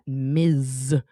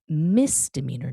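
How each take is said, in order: First: The first syllable has a buzzing z sound. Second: The first syllable has a hissing s sound. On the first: The speaker calls it wrong. "not Miz" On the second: The speaker calls it right. "See how the S just flows off"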